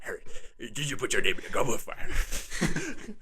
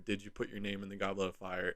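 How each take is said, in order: First: The question is asked in a frantic voice. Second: The question is asked in a calm voice.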